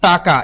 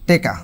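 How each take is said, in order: First: It is said as taka, with a k sound. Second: The first vowel becomes e: teka. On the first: "এটা হলো শুদ্ধ" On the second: "রংপুরের মানুষ কয় টেকা"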